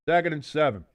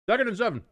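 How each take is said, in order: First: Said in the usual way. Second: Much higher, bright announcer pitch; high-pitched call. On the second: Shown as a demonstration.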